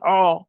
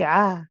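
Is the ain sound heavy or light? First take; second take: heavy; light. First: The ain sound is heavy and thick. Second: The ain sound is light and thin. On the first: The speaker calls it wrong. "So we don't say ah" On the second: The speaker calls it right. "We say ah, ah, ah. We make it sound light"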